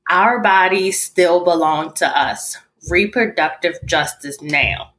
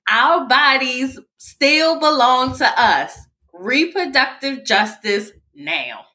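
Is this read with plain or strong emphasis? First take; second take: plain; strong. First: It is read plainly, without extra emphasis. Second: It is read with strong, forceful emphasis.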